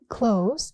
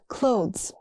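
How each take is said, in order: First: The th sound is skipped. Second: The th sound is pronounced. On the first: The speaker calls it wrong. "People skip the th" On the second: The speaker calls it right. "it's clothes"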